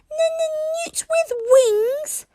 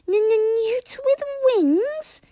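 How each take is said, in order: First: Even higher, slow, near-crying squeal; outraged stuttering dragon. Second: Very high, slow stuttering squeak; stuttering dragon. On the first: Toothless repeating the insult louder, crying squeal. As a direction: wail it, deeply offended. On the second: Toothless repeating the insult, high slow squeak. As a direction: squeak it out in offended disbelief. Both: A narrator's reading. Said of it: "repeated Toothless".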